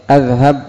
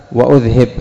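First: أذهب as "adh-hab", starting on "a"; open hamza in أذهب. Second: وأذهب as "wa-udh-hib", hamza on "u"; damma hamza in وأذهب. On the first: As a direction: open أذهب with "a", second vowel "a" too. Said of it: "الهمزة المضارعة مفتوحة". (أذهب بفتح الهمزة والهاء) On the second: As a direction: put "u" then "i" in وأذهب. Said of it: "فما الفرق بين". (وأذهب بضم الهمزة وكسر الهاء) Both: Shown as a demonstration.

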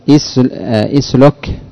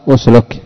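First: اسلك begun with a short "i" vowel, "islok"; kasra on hamza. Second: أسلك begun with a rounded short "u", "usluk"; damma on hamza. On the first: Teacher offers student a choice of vowels, اسلك opened with "i". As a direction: say اسلك with an opening "i" instead of "u". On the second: Teacher offers student the other choice, أسلك opened with "u". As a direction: say أسلك with an opening "u" instead of "i". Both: Shown as a demonstration. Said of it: "تقول بالضم أو بالكسر؟".

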